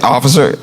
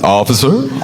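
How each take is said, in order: First: It is a short, plain, neutral greeting. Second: It is a warm greeting, like welcoming someone home.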